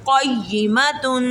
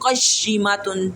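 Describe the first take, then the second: First: The doubled y is firm without any hiss. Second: The doubled y carries a whistling hiss. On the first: The speaker calls it right. "सीटी नहीं निकालनी" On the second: The speaker calls it wrong. "ऐसे नहीं"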